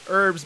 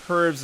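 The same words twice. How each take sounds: First: The word starts with no h sound. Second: The word starts with an audible h sound. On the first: The speaker calls it wrong. "as opposed to" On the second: The speaker calls it right. "because there's an H in front of it"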